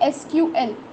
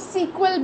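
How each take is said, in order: First: It is spelled out letter by letter. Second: It is said as one word, sequel. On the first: "best is एसक्यूएल" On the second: "जिसको सीक्वल भी बोलते हैं कई लोग"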